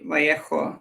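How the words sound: The name is said with a Spanish pronunciation. "like some bloody tryhard"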